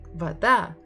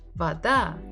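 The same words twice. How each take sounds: First: The stress is on the second syllable. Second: The same.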